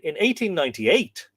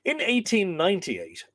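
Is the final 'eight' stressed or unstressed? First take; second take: stressed; unstressed. First: The final 'eight' is stressed. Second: The final 'eight' is not stressed.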